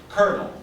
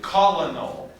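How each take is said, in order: First: It is said as two syllables, like kernel. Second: It is said as three syllables, as spelled. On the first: The speaker calls it right. "we would say colonel" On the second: The speaker calls it wrong. "we don't say colonel"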